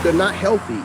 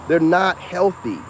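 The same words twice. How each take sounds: First: Said in the usual way. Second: Slow, weighted "not" in "They're not healthy"; stress on not. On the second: Shown as a demonstration. To viewers, repeating the point with stress on "not". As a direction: lean hard on "not", drawn out.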